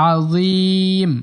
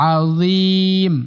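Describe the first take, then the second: The two takes are said the same way.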